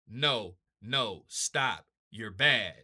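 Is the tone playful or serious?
serious. It is said in a serious, alarmed tone.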